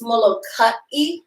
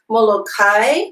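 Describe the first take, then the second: First: A glottal stop separates the final a and i. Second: The final a and i run together smoothly. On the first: The speaker calls it right. "we want to put a glottal stop between the A and the I" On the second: The speaker calls it wrong. "as opposed to"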